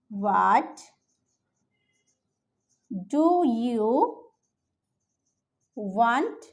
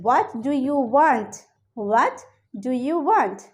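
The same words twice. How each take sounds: First: Word by word dictation. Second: Slow teaching read. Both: Shown as a demonstration. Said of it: "এভাবে জিজ্ঞেস করতে পারি".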